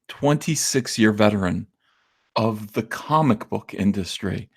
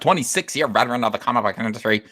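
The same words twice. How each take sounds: First: It is said with a reverent, dignified tone. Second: It is said with a sarcastic tone. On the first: The speaker honors the claim. The speaker calls it right. "with the honor, you know, and the reverence that it actually deserves" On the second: The speaker mocks the claim. The speaker calls it wrong. "Let me try that again without the sarcasm"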